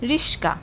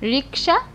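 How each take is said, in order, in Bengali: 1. s ধ্বনিটি k ধ্বনির আগে আসে। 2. k ধ্বনিটি s ধ্বনির আগে আসে। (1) "অনেকে রিস্কা বলছে" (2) "অনেকে রিকশা বলছে"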